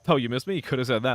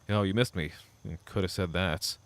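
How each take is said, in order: First: It is said in a light, joking tone. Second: It is said in a passive-aggressive tone. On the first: The remark is a friendly tease. "kinda like a joking one" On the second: The remark hides resentment. "the more, like, passive-aggressive option"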